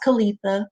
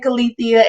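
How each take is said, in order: First: The name ends with a plain 'tha' sound. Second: The name ends with an added 'thee-uh' sound. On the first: The speaker calls it right. "It's pronounced Kalitha" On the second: The speaker calls it wrong. "A lot of people like to say Kalithia"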